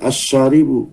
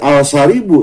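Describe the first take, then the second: First: The L is dropped, merging into the next consonant. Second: The article is said with a clear L sound. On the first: The speaker calls it right. "tapi asyaribu" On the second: The speaker calls it wrong. "Tidak tidak al-syaribu"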